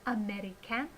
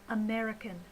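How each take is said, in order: First: "American" as a-meh-ree-CAN, rising at the end; the wrong "American", every vowel given full value; unreduced syllables. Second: "American" as uh-MER-i-kun, falling at the end; natural "American" with a schwa in the last syllable; reduced with schwa. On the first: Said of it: "instead of". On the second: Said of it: "we should say". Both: Shown as a demonstration.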